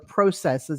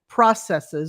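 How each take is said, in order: First: It is said in a Canadian way. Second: It is said in a non-Canadian way.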